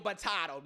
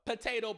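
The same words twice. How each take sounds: First: "potato" said po-TAH-to; AH pronunciation. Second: "Potato" said po-TAY-to; long A pronunciation. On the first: Comic shrugging off a quibble, "potato" as po-TAH-to. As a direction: say "potato" with an AH in the middle. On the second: Comic shrugging off a quibble, "Potato" as po-TAY-to. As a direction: say "Potato" with an AY in the middle. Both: Shown as a demonstration.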